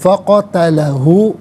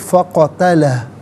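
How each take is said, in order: First: The word ends with a short u vowel. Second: The word ends on a bare h sound. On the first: The reading continues without stopping. "मिलाकर पढ़ेंगे।" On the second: The reader stops at this word. "यहाँ रुकेंगे तो फ़क़तलह पढ़ेंगे। आखिर में हा की आवाज़ सुकून के साथ आएगी"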